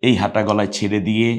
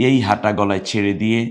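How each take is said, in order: Both takes have the same delivery.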